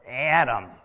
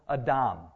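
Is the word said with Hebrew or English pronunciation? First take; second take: English; Hebrew. First: It is pronounced the usual English way. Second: It is pronounced the Hebrew way. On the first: "Or Adam, we say" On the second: "The word for humans in Genesis 1 is Adam"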